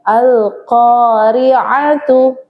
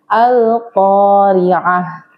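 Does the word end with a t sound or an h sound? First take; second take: t sound; h sound. First: The word ends with a t and a vowel. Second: The word ends with a soft h sound.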